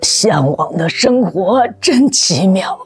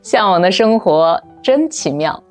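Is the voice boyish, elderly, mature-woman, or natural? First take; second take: elderly; natural. First: It is said in an old person's voice. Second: It is said in her natural voice.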